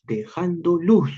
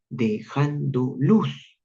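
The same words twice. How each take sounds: First: "luz" hit hard and falling, slow; strong beats. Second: "dejando luz" very slow, rising on "luz"; slow rising beat. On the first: Teacher to class, hitting the beat on "luz". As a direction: punch "luz" with force. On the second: Teacher to class, slowly lifting "luz". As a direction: stretch it out and lift "luz". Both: Shown as a demonstration. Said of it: "fíjate esta intensidad de los golpes".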